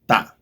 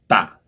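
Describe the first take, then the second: First: The t is said the Spanish way. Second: The same.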